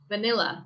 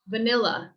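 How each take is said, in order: No difference in how they are said.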